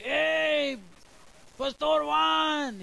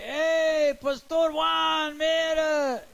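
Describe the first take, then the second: First: A lazier, long drawn-out hail at his back; neighbor calling again. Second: Much higher, loud call with a long drawn-out Pastor Juan; neighbor calling out. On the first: Neighbor tries again as the pastor ignores him, high and slow. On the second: Young neighbor mockingly hails the pastor from behind, high and loud. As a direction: yell after him from down the street. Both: Retold or imitated.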